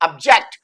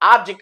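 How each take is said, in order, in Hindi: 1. बल दूसरे अक्षर पर है। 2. बल पहले अक्षर पर है। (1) "अब मेरे को इसको सेकंड को स्ट्रेस देना पड़ेगा" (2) "ये अ को आ बोलता है तो ये ऑब्जेक्ट"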